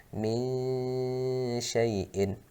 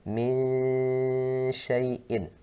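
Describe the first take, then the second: Both takes have the same delivery.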